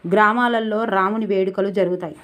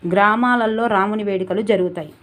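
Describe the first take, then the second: No difference in how they are said.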